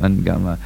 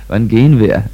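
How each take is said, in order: First: It is said in a Bavarian dialect form. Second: It is said in a standard German form.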